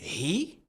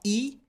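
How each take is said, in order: First: The word starts with an audible H sound. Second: The word starts without an H sound. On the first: The speaker calls it right. "Il faut prononcer le H dans he" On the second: The speaker calls it wrong. "On ne dira pas he"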